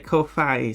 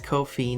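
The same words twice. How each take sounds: First: It ends in 'fye', like hi-fi. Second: It ends in 'fee', rhyming with 'no fee'. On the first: It is modeled on hi-fi and Wi-Fi. The speaker calls it wrong. "comes from hi-fi and Wi-Fi" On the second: The site charges no fee. The speaker calls it right. "so it's Ko-fi no fee"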